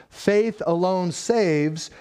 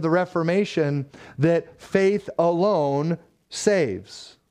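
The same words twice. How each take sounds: First: Faith alone saves, very slow with the stress on faith; slow emphatic repeat. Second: Faith alone saves, drawn out slow with weight on faith; slow, stressed creed. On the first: Preacher repeating the creed to build the point, slowly. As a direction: set it down word by word. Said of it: "but faith that saves is never alone". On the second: Preacher quoting the Reformation creed, slow and weighty. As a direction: lean on faith and let each word land. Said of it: "But that saying doesn't stop there". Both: Shown as a demonstration.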